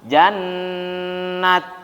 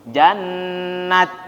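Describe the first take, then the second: Both takes have the same delivery.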